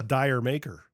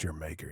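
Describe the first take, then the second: First: The first word sounds like 'dire'. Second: The first word sounds like 'jer'. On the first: The speaker calls it wrong. "that's the way I was saying it" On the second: The speaker calls it right. "You gotta be saying it that way"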